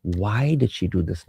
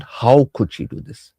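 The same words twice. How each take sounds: First: Said in the usual way. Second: Slow, mildly shocked question. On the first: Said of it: "your intent should be". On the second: Shown as a demonstration. Spouse whose perception was broken, shocked questioning. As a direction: ask it as a drawn-out, disbelieving reproach. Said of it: "how means you're shocked".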